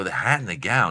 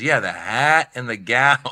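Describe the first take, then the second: First: Said in the usual way. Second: Slow, drawn-out club-owner impression; lightly put-on voice, words lingered over; Mitzi. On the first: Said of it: "I go". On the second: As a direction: stretch it out like the guru boss. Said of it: "that's how she talks".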